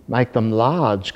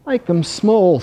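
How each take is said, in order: First: Slow, drawn-out whale voice; calling whale. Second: High, small ant voice; tiny ant. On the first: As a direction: call it out broadly like a whale. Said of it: "called the whale". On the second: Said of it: "said the ant". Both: A narrator's reading.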